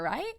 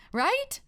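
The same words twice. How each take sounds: First: Said in the usual way. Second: Much higher, rising plea; pleading high right. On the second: Acted. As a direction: push it up high, begging agreement. Host repeats plea, much higher.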